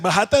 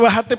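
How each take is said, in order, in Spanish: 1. El acento está en la segunda sílaba. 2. El acento está en la primera sílaba. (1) "se acentúa en la primera A o en la segunda A" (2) "En Venezuela se dice"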